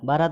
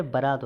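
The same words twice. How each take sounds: First: बारात opening on long "baa"; wrong long vowel. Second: बारात as "ba-raat"; short first vowel. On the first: Teacher showing the common error, long "baa" in बारात. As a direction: hold the first vowel of बारात. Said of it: "गलत है". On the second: Teacher correcting students, short "ba" in बारात. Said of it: "होता है". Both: Shown as a demonstration.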